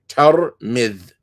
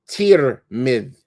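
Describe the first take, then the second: First: The first vowel is an 'a' sound. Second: The first vowel is an 'i' sound. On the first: This is how the local people say it. "they pronounce it with a ta and a fatha on the ta and a kesra on the meme" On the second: This is how others used to say it before. "with a kesra on the ta as well as the meme"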